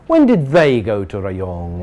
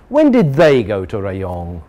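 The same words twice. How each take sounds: The two takes are said the same way.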